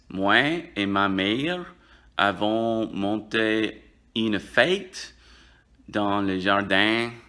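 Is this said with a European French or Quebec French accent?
Quebec French. It is said with a Quebec French accent. "Au Québec, on dirait à la place"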